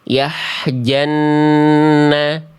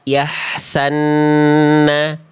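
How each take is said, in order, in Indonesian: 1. Bunyi j mengikuti bunyi h. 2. Bunyi s mengikuti bunyi h. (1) "ataupun yahjanna" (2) "Jangan dibaca yahsanna"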